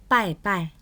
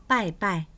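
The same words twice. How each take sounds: The two takes are said the same way.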